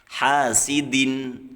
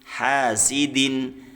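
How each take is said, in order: Both takes have the same delivery.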